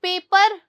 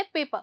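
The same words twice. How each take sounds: First: पेपर with a clearly rolled r at the end; hard r in paper. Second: पेपर ending on a soft vowel, the r dropped; soft r in paper. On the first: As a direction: say पेपर slowly, sounding the r in full. (पेपर में आर ज़ोर से बोलें) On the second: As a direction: say पेपर as pay-puh with no r. (पेपर में आर बहुत धीमा, लगभग गायब) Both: Shown as a demonstration. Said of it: "आर की साउंड बहुत धीरे है".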